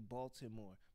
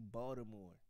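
First: It is said in a standard accent. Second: It is said in a local Baltimore accent.

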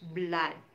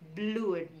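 First: The vowel is a short 'uh' sound. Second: The vowel is a long 'oo' sound. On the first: The speaker calls it right. "but we pronounce it blood. Jadi di situ double O produces sound A" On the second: The speaker calls it wrong. "we don't pronounce it as blood"

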